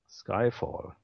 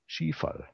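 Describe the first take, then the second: First: Skyfall is pronounced the English way. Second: Skyfall is pronounced German-style, as spelled.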